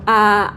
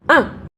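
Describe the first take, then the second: First: The pitch stays high and level. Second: The pitch drops sharply from high to low. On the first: "kita mulai dari nada sol" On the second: "turun ke bawah itu menghentak"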